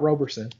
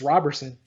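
First: The first syllable sounds like 'robe'. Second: The first syllable sounds like 'rob'. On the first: The speaker calls it wrong. "not Roberson" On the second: The speaker calls it right. "it's Roberson"

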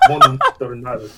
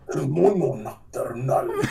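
First: It is said in a plain, ordinary accent. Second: It is said in a heavily exaggerated accent.

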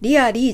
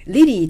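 First: The word has three syllables, ree-uh-lee. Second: The word has two syllables, rih-lee. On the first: "リアリーじゃなくて" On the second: "リリーという風に発音する方がどんどんネイティブで増えています"

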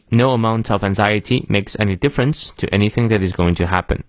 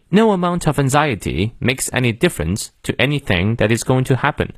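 First: It is read in an American accent. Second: It is read in a British accent. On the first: "美式发音" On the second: "英式发音"

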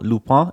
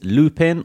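First: The name is pronounced with a French sound. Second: The name is pronounced with an English sound.

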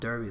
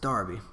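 First: The first vowel sounds like 'er' in her. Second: The first vowel sounds like 'ar' in car. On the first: The speaker calls it wrong. "I've been calling them Derby the last 4 or 5 podcasts" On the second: The speaker calls it right. "the E makes an A"

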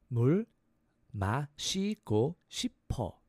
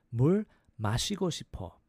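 First: It is said slowly. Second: It is said quickly.

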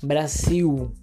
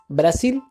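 First: The word ends with a U-like vowel sound. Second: The word ends with a clear L sound. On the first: The speaker calls it right. "la L cambia a ser U" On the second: The speaker calls it wrong. "en vez de decir Brasil"

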